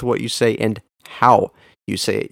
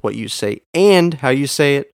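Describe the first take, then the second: First: "how" punched, with a short pause after; stress on HOW. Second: "and" punched above the words round it; stress on AND. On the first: Podcast teacher contrasting meanings for listeners, stress on "how". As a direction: make "how" the word that matters. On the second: Podcast teacher contrasting meanings for listeners, stress on "and". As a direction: make "and" the word that matters. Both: Shown as a demonstration. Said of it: "an emphasis given to one word".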